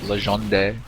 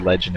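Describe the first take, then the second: First: The name is pronounced in a Spanish way. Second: The name is pronounced in a plain English way. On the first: "it could be Spanish, like uh" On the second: "I think we can stick with Legend and be alright"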